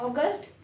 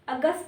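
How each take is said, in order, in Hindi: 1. यह शब्द एक साफ़ अंतिम 't' ध्वनि के साथ खत्म होता है। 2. यह शब्द बिना अंतिम 't' ध्वनि के खत्म होता है। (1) "ट लगता है लास्ट में" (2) "अगस्त नहीं"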